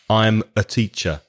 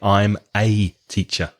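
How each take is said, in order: First: The word 'a' is a weak, reduced schwa. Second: The word 'a' is full and stressed. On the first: The speaker calls it right. "the pronunciation normally is the weak schwa" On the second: The speaker calls it wrong. "I probably wouldn't say I'm a teacher unless I wanted to stress it"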